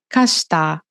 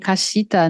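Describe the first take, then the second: First: The shi syllable is faded, nearly silent. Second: The shi syllable is clearly sounded. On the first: The speaker calls it right. "o "shi" ele vai sumindo" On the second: The speaker calls it wrong.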